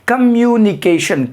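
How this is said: The word is said smoothly in one flow. "एक साथ flow में बोलेंगे"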